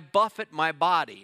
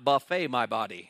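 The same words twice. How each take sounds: First: Buffet is said with stress first, ending like 'fit'. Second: Buffet is said with stress last, ending like 'fay'. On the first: Striking and disciplining the body. The speaker calls it right. "I buffet my body" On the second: Feeding the body from a food buffet. The speaker calls it wrong. "They're just going through the buffet"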